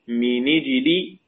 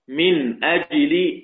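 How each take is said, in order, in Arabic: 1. النون تليها الكسرة مباشرة. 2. تنغلق النون، ثم تأتي الهمزة.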